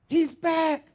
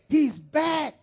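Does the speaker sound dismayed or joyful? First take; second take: joyful; joyful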